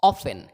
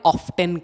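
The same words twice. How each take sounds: First: Often with silent t, OFF-un; no t at all in often; British pronunciation. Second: Often with the t sounded, OFF-ten; audible t in often; American variant. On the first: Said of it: "British English follow करते हैं". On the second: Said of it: "America में often कहा जाता है". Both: Shown as a demonstration.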